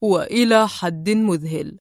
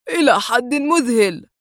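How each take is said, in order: First: "وإلى حد مذهل" slow and low with a secret smile; mysterious glee. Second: "إلى حد مذهل" lifted with open wonder; dazzled amazement. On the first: Adham echoing the man, with a mysterious gleeful smile. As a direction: savor "وإلى حد مذهل" knowingly. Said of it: "ابتسامة غامضة جذلة". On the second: The man amazed at the likeness. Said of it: "في انبهار". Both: A narrator's reading.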